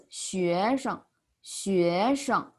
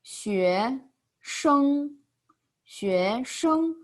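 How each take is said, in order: First: 学生 with short, light 生; neutral tone. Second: 学 rising, 生 long, high and level; separate full tones. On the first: Teacher says student as one word, 生 toneless. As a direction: rise on 学, then drop 生 briefly. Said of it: "When they are separately". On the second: Teacher separates the characters, 生 high and held. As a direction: give 学 and 生 each a full tone. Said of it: "we separate them". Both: Shown as a demonstration.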